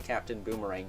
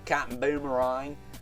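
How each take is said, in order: First: It is said in a neutral accent. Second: It is said in an Australian accent. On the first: The speaker calls it wrong. "You can't say Captain Boomerang" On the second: The speaker calls it right. "Gotta say Captain Boomerang"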